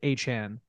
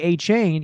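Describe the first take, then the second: First: The second syllable rhymes with 'Chan'. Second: The second syllable rhymes with 'chain'. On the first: The speaker calls it right. "it's actually pronounced A-Chan" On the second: The speaker calls it wrong. "they say A-Chain"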